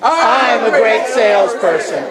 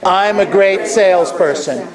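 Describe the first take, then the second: First: It is said with high energy. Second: It is said with low energy.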